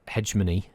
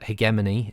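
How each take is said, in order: First: It is said with an American English pronunciation. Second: It is said with a British English pronunciation. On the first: "the American pronunciation is uh, uh, hegemony in America" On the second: "the English pronunciation, as in British English"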